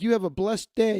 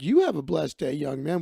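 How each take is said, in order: First: Said in the usual way. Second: "You" leaps up in pitch, the rest drops back; stress on "You". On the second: Retold or imitated. Man returns the farewell to a stranger, stress on "You". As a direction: punch "You" to return the blessing.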